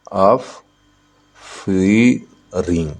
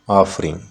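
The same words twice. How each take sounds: First: "offering" very slowly as ऑफ, फी, ring; syllable by syllable. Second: Said in the usual way. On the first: Shown as a demonstration. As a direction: stretch "offering" into three separated beats. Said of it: "तीन syllable". ("Offering" को ऑफ... फ़ी... ring, बहुत धीरे) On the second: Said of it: "offering में कितने syllable है?".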